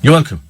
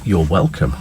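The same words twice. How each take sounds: First: It is said quickly and flatly, sounding insincere. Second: It is said slowly and warmly, sounding sincere. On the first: The thanks is not genuinely appreciated. The speaker calls it wrong. "that just sounded insincere. You just said it too quickly" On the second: The thanks is genuinely appreciated. The speaker calls it right. "It's when"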